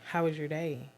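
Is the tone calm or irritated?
calm. The question is asked in a calm, friendly tone. The speaker genuinely wants to hear about the day. "I can ask you"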